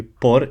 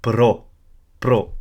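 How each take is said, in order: First: "por" with the vowel before the r; wrong reading "por", not "pro". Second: "pro" with the r straight after the p; right pro. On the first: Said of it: "it's not going to be por". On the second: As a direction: say "pro", r before the vowel. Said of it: "it's going to be pro". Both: Shown as a demonstration.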